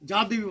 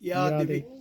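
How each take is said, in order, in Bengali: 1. প্রথম শব্দটি 'j' ধ্বনি দিয়ে শুরু হয়। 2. প্রথম শব্দটি 'y' ধ্বনি দিয়ে শুরু হয়।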